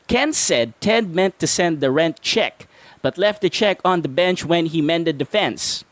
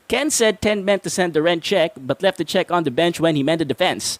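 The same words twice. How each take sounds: First: It is said at a normal pace. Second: It is said at a faster pace.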